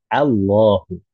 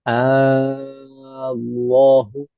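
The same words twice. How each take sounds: First: The opening vowel is kept short. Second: The opening vowel is drawn out long. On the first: The speaker calls it right. "Harus pendek" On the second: The speaker calls it wrong. "hamzah pada lafaz Allah itu tidak boleh dipanjangkan. Misalkan bagaimana? Allahu, maka itu tidak boleh"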